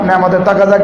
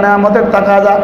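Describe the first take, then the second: The two takes are said the same way.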